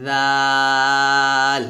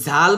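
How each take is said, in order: First: Tongue tip lightly on upper teeth for a long, thin জাল; slow, drawn-out জাল, light dental sound; thin dhal demo. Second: জাল with a buzzed z, short; short জাল starting on a z; wrong-sound demo. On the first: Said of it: "তবে জাল পাতলা হবে". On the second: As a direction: show the mistaken "zal" for জাল. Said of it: "তো জাল বলা যাবে না". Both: Shown as a demonstration.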